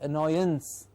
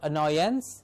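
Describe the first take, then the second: First: The ending is reduced to a short 'uns'. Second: The ending has a full 'ance' vowel. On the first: The speaker calls it right. "it's annoyance. So ance becomes or gets the pronunciation of uns" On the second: The speaker calls it wrong. "so it's not annoyance"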